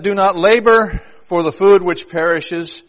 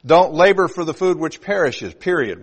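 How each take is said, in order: First: PERISHES left open for the contrast to follow; slow, loud reading with stress on LABOR, carrying on past "perishes"; sentence left open. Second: PERISHES closed off as the sentence's end, then a falling "period"; period after PERISHES. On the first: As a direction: read "Do not labor" slowly and loudly, unfinished at "perishes". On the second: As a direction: brisker reading, loud on LABOR, full stop after "perishes". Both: Shown as a demonstration. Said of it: "put a period in the middle of that sentence".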